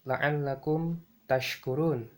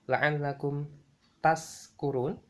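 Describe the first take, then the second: First: The last word has an 'sh' sound. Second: The last word has a plain 's' sound. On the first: So that you may be grateful. The speaker calls it right. "syakara itu artinya bersyukur" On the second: So that you may be drunk. The speaker calls it wrong. "apabila kita ucapkan dengan lafal seperti ini"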